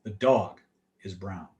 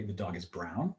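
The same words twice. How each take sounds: First: "The dog", short pause, "is brown" sinking very low and soft; falling statement. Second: Low, soft start, then "brown" swoops up; questioning fragment. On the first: Coach deploying a fragment, low falling statement. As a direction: break after "dog", drop right down on "brown". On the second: Coach deploying a fragment, soft question rising on "brown". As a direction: quietly lift "brown" into a question. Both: Shown as a demonstration. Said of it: "Or I could say".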